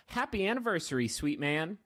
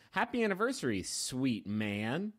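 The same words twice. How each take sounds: First: "sweet man" run together briskly after a raised "Happy anniversary"; misplaced emphasis. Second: "sweet man" dropped low and drawn out, rising on "man"; corrected emphasis. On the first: Host reading Grace's message to Ben, with misplaced emphasis. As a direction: read "sweet man" quickly, with a lift on "man". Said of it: "maybe I put the emphasis on the wrong word there". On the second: Host retrying Grace's message to Ben, with deliberate emphasis on "sweet man". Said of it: "Let me try again". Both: Shown as a demonstration.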